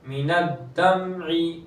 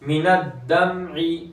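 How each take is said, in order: Both takes have the same delivery.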